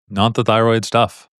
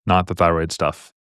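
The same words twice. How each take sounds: First: "Not the thyroid stuff" repeated slower, each word leaned on; slow emphatic repeat. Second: Said in the usual way. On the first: Shown as a demonstration. Tutor repeats the point slowly so students remember it. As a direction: drive the point home slowly.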